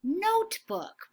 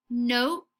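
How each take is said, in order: First: Higher, slow notebook; slow model word. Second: Said in the usual way. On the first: Shown as a demonstration. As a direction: sing out "Notebook" high and slow.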